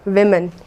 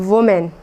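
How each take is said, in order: First: The first syllable sounds like 'wi'. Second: The first syllable sounds like 'woo'. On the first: The speaker calls it right. "बल्कि आपको कहना है विमेन।" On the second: The speaker calls it wrong. "सभी विमेन को गलत pronounce करते हैं"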